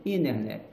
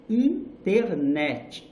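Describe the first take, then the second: First: "internet" with the first T dropped, "innernet"; quick, lower "inner-net"; English flat T. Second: "Internet" slow, full T and final "netch"; Brazilian-style pronunciation. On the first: Teacher showing it in English, "internet" without the first T. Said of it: "Em inglês". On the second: Teacher showing how not to say it, slow Brazilian "Internet". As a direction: say "in-ter-NETCH" syllable by syllable. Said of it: "Não". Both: Shown as a demonstration.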